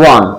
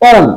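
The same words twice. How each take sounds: First: One said as "wun"; one, the right "wun"; one pronounced "wun"; correct pronunciation. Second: On said as "on", like the word on; the common wrong "on" for one; on pronounced "on"; wrong pronunciation. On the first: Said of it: "the pronunciation is". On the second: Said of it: "we pronounce it". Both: Shown as a demonstration.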